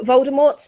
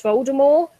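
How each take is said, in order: First: Said in the usual way. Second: "Voldemort" said the French way, without the final T; silent final T. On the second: Acted. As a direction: drop the T at the end of "Voldemort". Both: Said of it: "You dropped the T".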